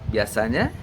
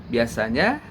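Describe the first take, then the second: No difference in how they are said.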